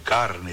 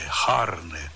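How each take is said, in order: First: It begins with a hard k sound. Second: It begins with a breathy h sound.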